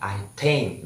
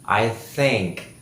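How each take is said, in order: First: The word think begins with a t sound. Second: The word think begins with a th sound. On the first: The speaker calls it wrong. "biasanya orang kita membaca teh ya ... ini yang uh, salah" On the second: The speaker calls it right. "yang benar adalah theh"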